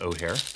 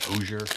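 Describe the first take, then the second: First: The middle consonant is silent. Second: The middle consonant is pronounced.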